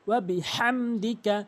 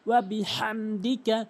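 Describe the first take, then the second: The two takes are said the same way.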